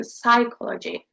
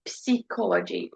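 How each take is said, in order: First: Psychology said /saɪkɑləʒi/ with no p; silent p psychology. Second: Psychology said with the p sounded; wrong p in psychology. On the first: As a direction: start psychology on the s sound. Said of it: "We're saying psychology". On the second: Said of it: "we're not saying psychology". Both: Shown as a demonstration.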